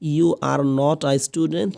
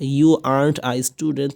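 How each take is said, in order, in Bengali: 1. "Are not" দুটো আলাদা পূর্ণ শব্দ হিসেবে বলা হয়। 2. "Are not" সংকুচিত হয়ে একটি সিলেবলে বলা হয়। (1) "আর নট কত বড় একটা" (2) "শর্ট করে বললে আর্নড"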